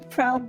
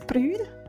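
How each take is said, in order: First: The word is said in his normal accent. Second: The word is said in a Scottish accent.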